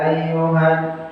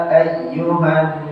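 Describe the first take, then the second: No difference in how they are said.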